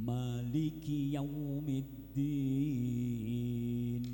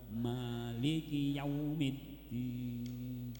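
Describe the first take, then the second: Both takes have the same delivery.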